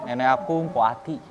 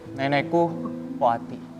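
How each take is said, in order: First: It is said in an embarrassed tone. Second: It is said in a sad tone.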